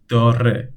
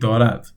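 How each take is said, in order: First: The word ends in a vowel. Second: The word ends in a d sound. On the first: The speaker calls it right. "We delete the D and we say داره" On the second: The speaker calls it wrong. "we don't say دارد"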